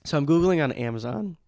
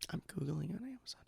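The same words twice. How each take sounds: First: Said in the usual way. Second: Breathy whispered repeat. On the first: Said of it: "repeated as whisper". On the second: Shown as a demonstration. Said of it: "whispered repeat".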